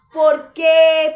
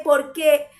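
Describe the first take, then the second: First: Sudden loud, rising plea; loud cry of why. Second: Said in the usual way. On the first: Acted. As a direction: throw the why out in a loud burst. Preacher voicing David to his soul.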